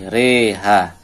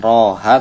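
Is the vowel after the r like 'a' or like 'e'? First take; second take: e; a. First: The vowel after r is tilted toward e. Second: The vowel after r is a full open a. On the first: The speaker calls it right. "tapi reha" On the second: The speaker calls it wrong. "kan roha"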